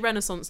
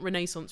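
First: It is pronounced the American way. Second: It is pronounced the British way. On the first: This is how Americans say it. "they say Renaissance" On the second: This is how the speaker naturally says it. "not Renaissance, which is naturally how I'd say it"

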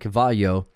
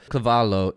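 First: The double L is said like a Y sound. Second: The double L is said as a clear L sound. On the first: The speaker calls it wrong. "no, that's not right" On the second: The speaker calls it right. "In Italian, you pronounce the L's"

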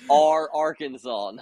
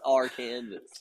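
First: The ending does not sound like Kansas. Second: The ending sounds like the word Kansas. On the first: The speaker calls it right. "It is Arkansas" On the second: The speaker calls it wrong. "not Arkansas"

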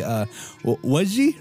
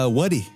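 First: The middle consonant is a j sound. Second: The middle consonant is a d sound. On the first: This is how another village says it. "some people out here would say waji" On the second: This is how the speakers' own village says it. "But us, we say wadi"

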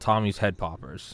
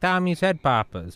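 First: It is said in the speaker's plain accent. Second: It is said in a New England accent.

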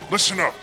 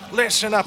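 First: It is said in a deeper voice. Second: It is said in a normal voice.

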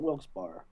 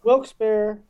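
First: The second part sounds like bar. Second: The second part sounds like bear. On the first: The speaker calls it wrong. "Not Bar" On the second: The speaker calls it right. "It's Bear? / Bear"

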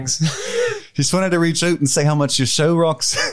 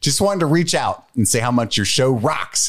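First: It is spoken in a Liverpool accent. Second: It is spoken in an American accent. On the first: "That's Liverpool" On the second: "I'll just read it in American"

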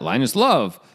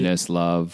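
First: It is said strongly, with lively emphasis. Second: It is said flatly, in a monotone.

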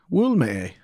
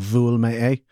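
First: The first word begins with a w sound. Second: The first word begins with a v sound. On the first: "the w sound" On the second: "the v sound"

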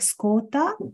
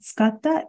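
First: It is said in the Ehime dialect. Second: It is said in standard Japanese.

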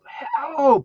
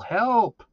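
First: It is shouted with full force. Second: It is shouted at moderate loudness.

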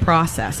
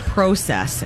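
First: It is said with a non-Canadian pronunciation. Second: It is said with a Canadian pronunciation. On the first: "instead of process" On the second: "how they say process"

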